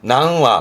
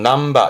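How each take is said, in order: First: The counter begins with a w sound. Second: The counter begins with a b sound. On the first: "요즘은 보면 복잡하다고 전부 다 와를 써가지고 낭와" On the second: "몇 마리도 남바가 원래 정확한 표현이고요"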